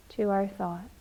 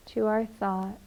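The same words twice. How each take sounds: The two takes are said the same way.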